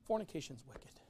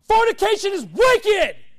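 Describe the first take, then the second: First: It is said in a mild, gentle way. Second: It is said in a harsh, forceful way. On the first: The point may be easily ignored. The speaker calls it wrong. "Saying it in a nicer way" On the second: The point will be believed and remembered. The speaker calls it right. "I say it in a meaner way so that you don't forget it"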